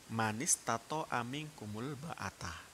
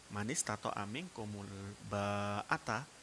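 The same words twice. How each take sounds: First: The vowel in the last word is short. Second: The vowel in the last word is long. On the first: It refers to sexual relations. "kalau itu dibaca pendek" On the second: It refers to the cost of marriage. "kalau dibaca panjang"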